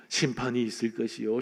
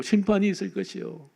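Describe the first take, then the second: First: 심판이 있을 것이요 muttered low and soft, without conviction; grudging prophet mumbling his warning, lower and softer; half-hearted proclamation. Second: Said in the usual way. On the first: Retold or imitated. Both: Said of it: "그는 근성근성 거리를 다니면서".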